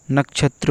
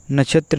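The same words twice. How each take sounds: First: नक्षत्र with a clear k before chh; नक्षत्र with the k sounded; correct pronunciation. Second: नक्षत्र said as "nachhatra"; नक्षत्र as नछत्र; wrong pronunciation. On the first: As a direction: say नक्षत्र as "nak-chhatra". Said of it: "नक्षत्र होगा". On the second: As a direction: leave the k out of नक्षत्र. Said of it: "नक्षत्र नहीं". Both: Shown as a demonstration.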